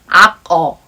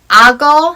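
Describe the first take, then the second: First: The k sound stays at the end of the first syllable. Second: The k sound carries over into the second syllable. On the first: The speaker calls it wrong. "Nobody say like 악어" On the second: The speaker calls it right. "sounds more natural"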